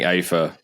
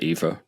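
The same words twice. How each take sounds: First: The word is said the non-American way. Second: The word is said the American way. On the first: "I've been saying ether" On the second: "say ether to sound more American"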